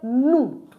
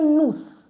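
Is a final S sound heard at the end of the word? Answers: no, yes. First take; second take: no; yes. First: The final S sound is silent. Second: The final S sound is pronounced. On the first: The speaker calls it right. "I said nu. ... This S is also not pronounced" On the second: The speaker calls it wrong. "I didn't say nous"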